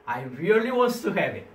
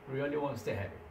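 First: Said in the usual way. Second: Much softer repeat of "Really wants to have it"; soft echo. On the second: Shown as a demonstration. Teacher softly echoes the taker's craving to the class. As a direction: drop to a near murmur on the repeat.

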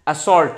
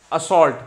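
Both takes have the same delivery.

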